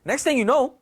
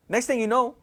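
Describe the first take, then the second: No difference in how they are said.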